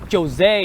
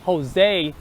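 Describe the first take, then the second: First: It begins with an English 'j' sound. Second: It begins with an 'h' sound. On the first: The speaker calls it wrong. "You don't you don't say Joe Josie or Jose" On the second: The speaker calls it right. "You say Jose"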